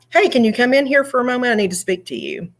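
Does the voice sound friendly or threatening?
friendly. The tone is friendly and unthreatening. The listener has nothing to worry about. "that first one, I don't mind so much to go to boss's office"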